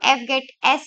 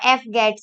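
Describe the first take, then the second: First: The name ends with 'get' then a separate letter S. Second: The name ends with the single word 'gets'. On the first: "इसको हम F गेट एस भी बोलते हैं" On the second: "और F गेट्स भी"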